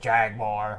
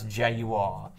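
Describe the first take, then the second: First: Jaguar is said the American way. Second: Jaguar is said the British way. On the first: The speaker calls it wrong. "and pronounce it Jaguar" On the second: The speaker calls it right. "They cannot pronounce Jaguar"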